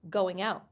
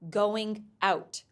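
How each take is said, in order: First: The final consonant runs smoothly into the next word. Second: The two words are said separately, with a break. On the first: The speaker calls it right. "a consonant sound at the end of one word gets linked to the first sound of the next word" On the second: The speaker calls it wrong.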